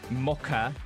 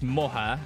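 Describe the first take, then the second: First: The middle consonant is a hard k sound. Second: The middle consonant is a soft h sound. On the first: The speaker calls it right. "According to the other guy, it's mocha" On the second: The speaker calls it wrong. "The C is silent in... So according to that guy, it's moha"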